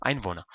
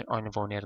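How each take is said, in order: First: Einwohner ending in a soft -na, r dropped; Einwohner with vocalic r. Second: Einwohner with the final r sounded, ending in -ner. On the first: Teacher corrects students' Einwohner, ending in -a. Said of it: "نه، Einwohner". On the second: Teacher models Einwohner to students, ending in -ner. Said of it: "شما باید بگید". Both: Shown as a demonstration.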